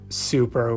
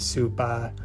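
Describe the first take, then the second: First: The word ends with an er sound. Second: The word ends with an uh sound. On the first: "words that end in er" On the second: "We will write them with like an a"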